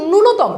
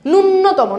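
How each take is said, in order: First: "ন্যূনতম" as nu-no-to-mo, with a single n; long u, then one light n in "ন্যূনতম"; correct pronunciation. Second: "ন্যূনতম" as nun-no-to-mo, with a doubled n; wrong pronunciation. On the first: Teacher correcting the class, pronounced carefully with single n. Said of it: "এটার উচ্চারণটা হচ্ছে". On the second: Teacher rejecting a common error, mispronounced with doubled n. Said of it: "ন্যূনতম না". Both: Shown as a demonstration.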